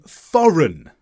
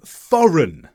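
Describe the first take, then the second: First: The G is silent; only N is heard. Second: The G is silent; only N is heard.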